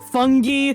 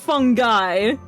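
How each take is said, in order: First: The word is not said like 'fun guy'. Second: The word is said like 'fun guy'. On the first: Someone else said it this way. "Is that the correct pronunciation?" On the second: The speaker has always said it this way. "I've always pronounced it fungi. Like, hey, I'm a fun guy"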